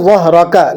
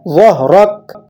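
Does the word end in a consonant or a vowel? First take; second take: vowel; consonant. First: The word ends with a final short vowel. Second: The word ends on a bare consonant. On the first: This is the word's full form. "ज़हरका असल में क्या था" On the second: The reciter is stopping at the end of the verse. "वक़्फ़ के लिए इसे क्या कर दिया"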